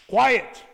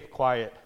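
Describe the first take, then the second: First: The word is said sternly and loudly. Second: The word is said mildly and casually. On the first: A serious warning that must be obeyed. "the eyes are big, and the tone is loud" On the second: A casual request to be quiet. "it's one thing to say, hey, quiet"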